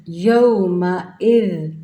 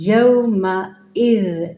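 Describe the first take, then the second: No difference in how they are said.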